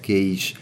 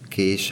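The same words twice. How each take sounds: First: The vowel glides into a closing diphthong. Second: The vowel is a plain long vowel. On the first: This is the Somogy and Ormánság dialect form. "záródó diftongusokat a somogyi, ormánsági részeken" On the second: This is the standard form. "kés helyett"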